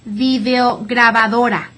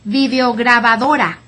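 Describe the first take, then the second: The two takes are said the same way.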